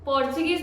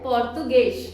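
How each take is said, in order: First: Said in the usual way. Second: पोर्तुगेश, not पोर्चुगीज; Portuguese pronunciation. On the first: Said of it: "पोर्चुगीज को पोर्चुगीज नहीं कहते हैं". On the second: Shown as a demonstration. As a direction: say पोर्तुगेश the native way, ending in sh. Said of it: "हम कहते हैं पोर्तुगेश".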